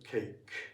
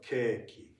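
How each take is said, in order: First: It is said with an English-style vowel. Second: It is said with a Japanese-style vowel. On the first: The speaker calls it right. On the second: The speaker calls it wrong.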